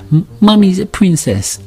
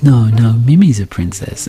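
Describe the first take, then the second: First: Put-on high little-girl voice; admiring toddler. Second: High, drawn-out motherly gushing; doting mum. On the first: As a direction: compliment Mummy like a small child. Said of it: "my daughter goes". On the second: Retold or imitated. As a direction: gush back sweetly at a toddler. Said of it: "my wife goes".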